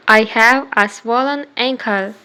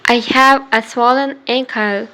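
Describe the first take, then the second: No difference in how they are said.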